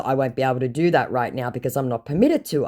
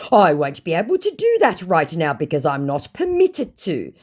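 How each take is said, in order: First: Said in the usual way. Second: Higher, hammed-up excuse; mock a scammer protesting; put-on officious refusal. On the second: First take, scammer's reply.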